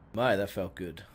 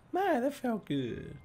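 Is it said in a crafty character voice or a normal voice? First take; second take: normal; crafty. First: It is said in a plain, normal voice. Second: It is said in a crafty Callisto voice.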